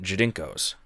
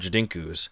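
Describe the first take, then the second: First: The last vowel is an 'oh' sound. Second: The last vowel is an 'oo' sound. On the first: The speaker calls it right. "There's an O there" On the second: The speaker calls it wrong. "I always call them Jadinkus"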